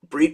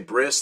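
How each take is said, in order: First: The word ends with a t sound. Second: The word ends with an s sound.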